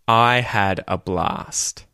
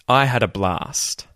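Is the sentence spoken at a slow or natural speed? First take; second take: slow; natural. First: It is spoken slowly and carefully. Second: It is spoken at a natural, faster speed.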